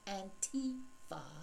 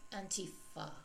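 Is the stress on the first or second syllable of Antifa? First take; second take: second; first. First: The stress is on the second syllable. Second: The stress is on the first syllable. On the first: The speaker calls it wrong. "not Antifa. We're not playing T" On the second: The speaker calls it right. "It is Antifa"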